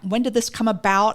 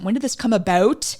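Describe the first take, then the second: First: It is said in the speaker's ordinary accent. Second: It is said in a put-on Canadian accent.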